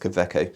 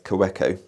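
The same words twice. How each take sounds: First: The name is said with the German W sound. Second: The name is said with a non-German W sound. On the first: This is the correct pronunciation of the name. The speaker calls it right. "But no, it's Kaweco" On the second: This is how non-German speakers say it. The speaker calls it wrong. "people from various countries around the world which aren't German speakers pronounce it as Kaweco"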